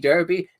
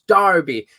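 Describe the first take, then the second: First: Derby is pronounced in a non-English way. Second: Derby is pronounced the way people in England say it. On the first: This is how the speaker said it before moving. "It used to be" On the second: This is how the speaker says it since moving to England. "now it's"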